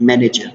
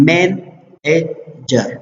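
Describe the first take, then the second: First: Said in the usual way. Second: مینیجر very slowly, as men, ej, jer with pauses; syllable by syllable. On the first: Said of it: "سیلیبلز". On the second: Shown as a demonstration. Teacher giving an example of three syllables, مینیجر said syllable by syllable. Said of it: "تھری واول ساوند شوله".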